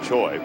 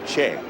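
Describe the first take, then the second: First: The name is said with an "oy" vowel. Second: The name is said with an "eh" vowel. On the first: This is how it is said in the United States. "when he's stateside that it just remains Ji-Man Choi" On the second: This is how it is said in South Korea. "the Korean pronunciation of his last name is Che"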